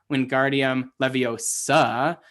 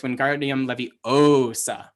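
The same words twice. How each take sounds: First: Wingardium Leviosa with the stress on the final SA; levio-SA, leaning on the last syllable of Leviosa; wrong-syllable stress. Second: Wingardium Leviosa with a long, stretched O in levi-O-sa; stress on O. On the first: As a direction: say Wingardium Leviosa, landing hard on SA at the end. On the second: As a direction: slowly draw out the O of Leviosa. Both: Acted. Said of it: "he is accenting the wrong syllable".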